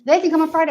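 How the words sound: The stress is on the word they. Only this group is welcome, nobody else. "I want them to come and nobody else"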